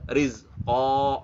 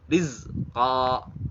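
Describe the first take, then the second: First: The final vowel is said with rounded lips. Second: The final vowel is said with unrounded lips. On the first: The speaker calls it wrong. "nggak boleh rizqa" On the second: The speaker calls it right. "tidak membulatkan bibir"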